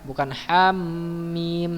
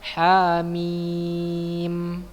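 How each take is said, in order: First: The mim is merged in without being held. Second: The mim stands alone and is held long. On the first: The speaker calls it wrong. "Mimnya ini tidak antum leburkan ya, bukan hamim, salah ya" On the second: The speaker calls it right. "hanya berdiri tegak sendiri. Hamim. Panjang ya, mimnya panjang enam harokat"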